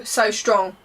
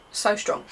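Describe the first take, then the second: First: Said in the usual way. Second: Breathy whispered echo. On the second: Real, not acted. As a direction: drop to a whisper for emphasis. Whispered repeat of the phrase.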